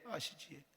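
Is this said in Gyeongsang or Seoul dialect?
Gyeongsang. It is said in Gyeongsang dialect. "우리 경상도 말로"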